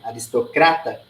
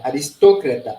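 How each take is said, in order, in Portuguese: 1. É acentuada do jeito português. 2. É acentuada do jeito espanhol. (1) "Em português" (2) "Mudou o idioma, mudou a tonicidade"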